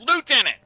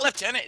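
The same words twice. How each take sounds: First: The first syllable has no f sound, 'loo'. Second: The first syllable has an f sound, 'lef'. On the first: The speaker calls it right. "it's lieutenant" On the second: The speaker calls it wrong. "There's no F in fucking lieutenant. It's not lieutenant"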